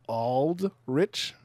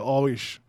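First: The d sound in the name is pronounced. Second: The d sound in the name is dropped. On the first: "we don't say it that way" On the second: "Haitians, we say Aldrich. We leave out the D"

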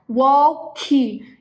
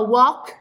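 First: The word ends with an added i vowel. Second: The word ends cleanly on the final consonant. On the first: The speaker calls it wrong. "colocar o i no final" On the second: The speaker calls it right. "Ao invés de falar walk"

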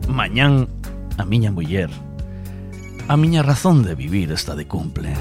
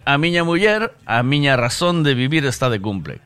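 First: It is read in a deep, dramatic voice. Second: It is read in a plain, flat voice.

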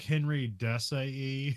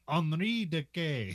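First: The name is read the way it looks written. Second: The name is said differently from its written form. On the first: The speaker calls it wrong. "now it looks like Henry Desailly or something" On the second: The speaker calls it right. "but you're supposed to say it like Henri Decay"

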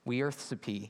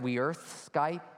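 First: The word ends with a 'sa-pee' sound. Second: The word ends with a 'skype' sound. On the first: The speaker calls it right. "a friend of mine helped me to find a pronunciation for it" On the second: The speaker calls it wrong. "I butchered this thing when I first saw it. I thought it was like"

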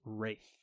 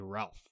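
First: The name is said the British way. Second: The name is said the American way. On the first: "That's how you say it in England" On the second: "In the United States, you say Ralph"

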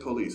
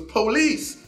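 First: It is said at a normal, quiet volume. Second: It is yelled loudly.

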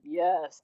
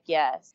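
First: It is said in a plain voice. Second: It is said in a scary voice.

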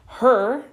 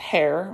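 First: The name rhymes with the word 'her'. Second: The name rhymes with the word 'hair'. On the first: The speaker calls it right. "many people mispronounce this" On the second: The speaker calls it wrong. "not pronounced hair"

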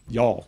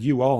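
First: It is contracted into one short syllable. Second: It is said as two separate full words. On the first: The speaker sounds like a local. The speaker calls it right. "That sounds like you're trying. Y'all" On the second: The speaker sounds like an outsider trying too hard. The speaker calls it wrong. "ding, failure number one. You're in South Georgia. You don't say you all"

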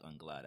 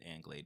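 First: The name is pronounced in a French way. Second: The name is pronounced in an American way. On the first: The speaker calls it right. "but I like Anglade as I'm, you know, climbing up the ladder" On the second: The speaker calls it wrong. "American way you could pronounce it Anglade"

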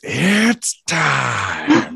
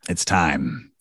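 First: It imitates the UFC announcer's voice. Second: It is said in his normal voice.

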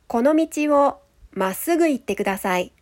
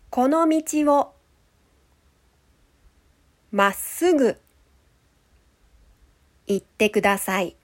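First: It is spoken at a normal, natural speed. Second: It is spoken slowly and deliberately. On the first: "1 回目は普通のスピードで話します。" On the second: "2 回目はゆっくり話します。"

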